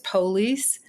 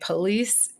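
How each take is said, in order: First: The word is said with a Southern US pronunciation. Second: The word is said with a non-Southern pronunciation. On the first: "I lived in the South for a while, and where I lived, they pronounced the word police as police" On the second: "where I live now, we say police. I emphasize the schwa, so that sounded weird"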